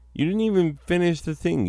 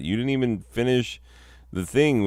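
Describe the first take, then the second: First: High, fast exasperated scolding. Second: Said in the usual way. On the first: Acted. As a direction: rush it out, higher. Scolding Gramps.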